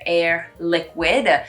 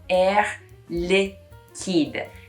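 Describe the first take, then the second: First: The second word sounds like English 'liquid'. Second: The second word is French, ending in a clear D. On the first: The speaker calls it wrong. "you want to say air liquid, but it's not" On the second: The speaker calls it right. "you pronounce the D at the end"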